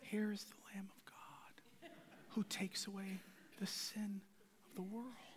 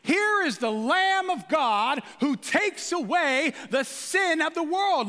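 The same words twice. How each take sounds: First: It is said flatly, without energy. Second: It is said with excited energy.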